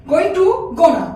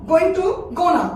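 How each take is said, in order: Both takes have the same delivery.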